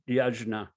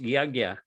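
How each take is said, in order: First: The middle cluster sounds like j followed by n. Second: The middle cluster sounds like g followed by y. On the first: The speaker calls it wrong. "it's not pronounced yajna" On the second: The speaker calls it right. "it's pronounced yagya"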